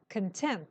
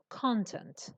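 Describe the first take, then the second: First: The stress is on the second syllable. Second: The stress is on the first syllable. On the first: The word is an adjective. "The stress goes on the second syllable and it's an adjective" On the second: The word is a noun. "The stress is on the first syllable"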